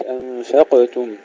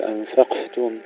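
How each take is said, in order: First: "أنفقتم" with a bouncing echo on the ق; qalqalah on qaf. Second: "أنفقتم" with the ق hushed, no bounce; wrong, breathed qaf. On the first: Teacher shows the correct qaf in أنفقتم, echoed qalqalah. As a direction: release the ق in "أنفقتم" with a small bounce. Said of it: "القلقلة في القاف". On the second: Teacher warns against this mistake in أنفقتم, whispered qaf. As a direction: let air replace the echo on the ق in "أنفقتم". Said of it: "لا نهمسها وإنما نقلقلها". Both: Shown as a demonstration.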